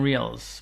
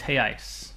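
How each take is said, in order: First: The word is said like English 'reals'. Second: The word is said with an 'ice' ending. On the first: The speaker calls it wrong. "Americans say Brazilian reals" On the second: The speaker calls it right. "but it's reais"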